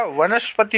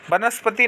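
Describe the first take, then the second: First: वनस्पति as "va-nas-pati"; correct v sound. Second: वनस्पति as "ba-nas-pati"; wrong b sound. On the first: Teacher giving students the right form, clear v. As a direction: start वनस्पति with v. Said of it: "होता है". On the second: Teacher showing students the mistake, b substituted. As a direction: start वनस्पति with b. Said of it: "नहीं होगा". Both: Shown as a demonstration.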